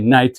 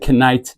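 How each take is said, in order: First: The word starts with an N sound, K silent. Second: The word starts with a pronounced K sound. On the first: The speaker calls it right. "you say night" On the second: The speaker calls it wrong. "you don't say knight"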